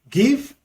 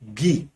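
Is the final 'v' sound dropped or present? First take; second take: present; dropped. First: The word ends with a clear v sound. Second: The word ends on the vowel, no v. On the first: This is the standard English form. "Another verb is give" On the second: This is the Nigerian Pidgin form. "pronounced as gi. Dropping the letters V and E"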